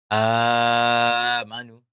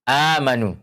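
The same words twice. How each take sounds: First: The first long vowel is held for four counts. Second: The first long vowel is held for two counts. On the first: This follows another reading tradition. "dalam qiraah Warsh itu membaca eh, apa? Eh, empat harakat" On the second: This follows one reading tradition. "qiraah hafs itu menggunakan dua qasar"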